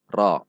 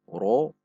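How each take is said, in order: First: The vowel is said with unrounded lips. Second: The vowel is said with rounded lips. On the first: The speaker calls it right. "namun ra" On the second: The speaker calls it wrong. "Tidak dibaca dengan membulatkan bibir"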